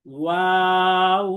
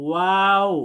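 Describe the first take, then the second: First: ওয়াও stretched very slowly, three alif long, louder; long drawn waw. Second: ওয়াও said slowly with rounded lips and a gap; clear waw demo. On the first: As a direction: hold ওয়াও long for the class to copy. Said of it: "তিন আলিফ টেনে পড়তে হবে". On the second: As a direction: model ওয়াও, lips round, held a beat. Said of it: "বরং আমরা বলবো". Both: Shown as a demonstration.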